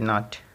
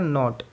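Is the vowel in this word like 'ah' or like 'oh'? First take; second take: ah; oh. First: The vowel sounds like 'ah'. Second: The vowel sounds like 'oh'. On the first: This is how native speakers say it. "इसको वो लोग नाट बोलते" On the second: This is how we usually say it. "इसको अपन क्या बोलते हैं बेटा"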